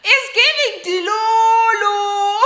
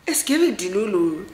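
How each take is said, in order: First: Slow, high sing-song mocking chant; sung tease. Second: Said in the usual way.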